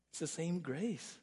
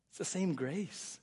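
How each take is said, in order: Both takes have the same delivery.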